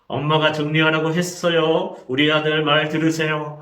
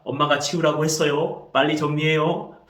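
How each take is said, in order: First: Acted mother holding back anger, louder; through gritted teeth. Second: Imitating a parent being carefully polite; polite restraint. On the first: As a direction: force polite words through gritted teeth. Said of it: "이를 물면서 말합니다". (이를 악물고 화를 참는 엄마 흉내) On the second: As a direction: ask the child in measured polite speech. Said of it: "이번에는 존대를 씁니다". (애써 존댓말하는 엄마 흉내)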